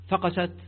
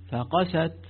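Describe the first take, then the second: First: The letters are snatched quickly and run together. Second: Each letter is held for its full length. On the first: Something hatched. The speaker calls it wrong. "اختلستها بسرعة" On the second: Their hearts hardened. The speaker calls it right. "إذا أعطيت الفاء الزمن الصوتي، والقاف الزمن الصوتي، السين الزمن الصوتي، التاء الزمن الصوتي"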